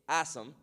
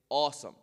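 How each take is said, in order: First: The vowel is said light and thin. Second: The vowel is said heavy and full. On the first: The speaker calls it wrong. "You don't say awesome" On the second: The speaker calls it right. "It has an aw sound"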